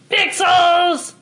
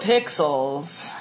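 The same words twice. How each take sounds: First: It is said in a silly voice. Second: It is said in a deep, flat work voice.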